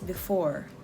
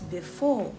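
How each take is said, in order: First: It is said in an American accent. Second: It is said in a British accent. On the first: "in General American G A, it is" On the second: "In G B, it is"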